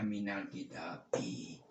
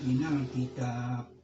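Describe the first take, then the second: First: The final word ends with its full vowel. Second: The final word is cut off without its vowel. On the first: The speaker calls it right. "harus dibaca minal kitabi" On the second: The speaker calls it wrong. "Jangan sering-sering diwakafkan"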